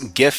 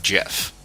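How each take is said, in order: First: It starts with a hard g sound. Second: It starts with a soft j sound. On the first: The speaker calls it right. "It's GIF as in gift" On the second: The speaker calls it wrong. "not GIF"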